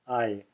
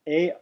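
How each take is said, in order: First: The vowel glides from ah to ee. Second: The vowel sounds like ey in hey. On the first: The speaker calls it right. "It changes from ah to e in mid pronunciation" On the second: The speaker calls it wrong. "it's often pronounced as the ey in hey in South India"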